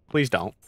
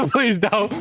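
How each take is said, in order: First: Said in the usual way. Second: Pleading through a laugh. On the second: Acted. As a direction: beg while laughing, higher. Repeats plea while laughing.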